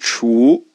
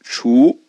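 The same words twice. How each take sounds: First: It blends ch with a wu vowel. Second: It blends ch with a wu vowel.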